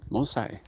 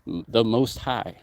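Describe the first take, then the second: First: Light Jamaican accent on Most High. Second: Said in the usual way. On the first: Shown as a demonstration. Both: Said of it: "Most High in a Jamaican accent".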